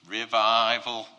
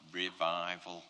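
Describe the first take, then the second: First: Much louder, proclaiming revival; rousing cry. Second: Said in the usual way. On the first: Acted. Preacher voicing Elijah's thought of revival, loud rousing cry. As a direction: cry it out loud as a triumphant announcement.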